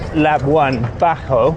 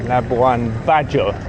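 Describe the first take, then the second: First: The j in Bajo sounds like an h. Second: The j in Bajo sounds like English j. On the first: The speaker calls it wrong. "as I was pronouncing it Spanishly" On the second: The speaker calls it right. "with a J"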